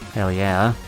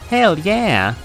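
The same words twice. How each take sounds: First: It is said in his normal voice. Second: It is said in a Pikachu impression.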